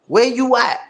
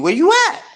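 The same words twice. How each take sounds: First: Firmer taunt. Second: High, sing-song taunt, much higher; mocking call-out. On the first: Acted. Streamer repeating the question to the rival, pointed. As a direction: ask it again, flatter and pointed. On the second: Streamer taunting a hiding rival, high mocking call. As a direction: call him out like hunting for him.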